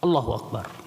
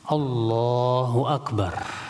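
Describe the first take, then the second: First: The vowel in Allah is cut short. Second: The vowel in Allah is held two beats. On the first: The speaker calls it wrong. "mau mengucapkannya dengan cepat" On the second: The speaker calls it right. "Dipanjangin lagi dikit"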